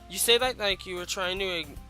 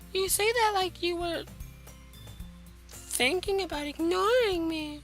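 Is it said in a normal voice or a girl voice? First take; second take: normal voice; girl voice. First: It is said in his normal voice. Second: It is said in a put-on girl voice.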